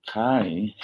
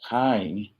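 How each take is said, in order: The two takes are said the same way.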